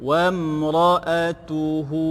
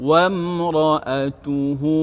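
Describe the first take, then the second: The two takes are said the same way.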